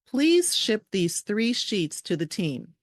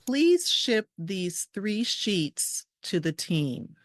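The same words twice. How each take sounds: First: The sentence is spoken at a faster pace. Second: The sentence is spoken at a slower pace.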